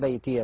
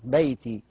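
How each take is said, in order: First: The final ya carries a short a vowel. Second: The final ya is silent, with no vowel. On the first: The reciter continues to the next word. "لكن لو وصلنا ... هتفتح" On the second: The reciter pauses on this word. "لو وقفنا عليها"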